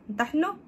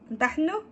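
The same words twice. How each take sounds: No difference in how they are said.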